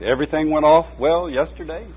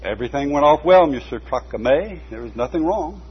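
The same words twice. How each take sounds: First: The pastor's lightly voiced question, rising. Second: A light hint of Emily's piping, accented voice. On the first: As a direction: ask it kindly as the pastor, a touch higher. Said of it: "the pastor asked". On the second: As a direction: answer as a small, firm old woman, lightly voiced. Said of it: "replied the piping voice with an accent". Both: A narrator's reading.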